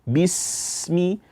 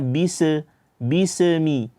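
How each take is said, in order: First: The s sound flows smoothly without bouncing. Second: The s sound bounces with an extra vowel. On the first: The speaker calls it right. "selesaikan aliran bacaannya" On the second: The speaker calls it wrong. "memantulkan suara huruf sin"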